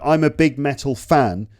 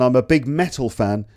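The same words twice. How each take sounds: First: The word fan is stressed. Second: The word metal is stressed. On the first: The speaker is a large fan made of metal. "means I'm a big fan made of metal" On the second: The speaker really likes metal music. "means I like metal music"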